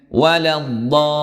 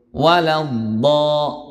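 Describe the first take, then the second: First: Waladdo said slowly, stopping there; slow example. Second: Waladdo sung very slowly, vowel held; chanted recitation. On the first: Teacher reads up to the stop point, slowly. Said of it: "berhenti di situ". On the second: Teacher recites the stopped word, very slowly chanted. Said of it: "berapa harokat?". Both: Shown as a demonstration.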